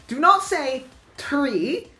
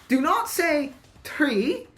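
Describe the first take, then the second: No difference in how they are said.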